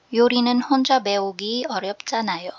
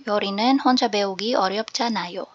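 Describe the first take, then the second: Both takes have the same delivery.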